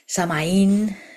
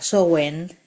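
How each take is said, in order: First: The name is said like 'sa-ma-een', stress at end. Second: The name is said like 'sow-en', two short syllables. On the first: This is the form heard in parts of Spain. "Samhain también podemos escuchar en muchas partes de, de España" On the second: This is the original way the name is pronounced. "pronunciada Sowen"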